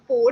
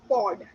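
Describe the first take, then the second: First: The vowel sounds like a plain 'o'. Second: The vowel sounds like 'ao' in 'pao'. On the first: The speaker calls it wrong. "It is not pod" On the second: The speaker calls it right. "it is pod. ... po and pao, the second matra"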